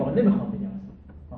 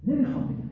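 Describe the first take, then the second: First: Said in the usual way. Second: High mock refusal. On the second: Shown as a demonstration.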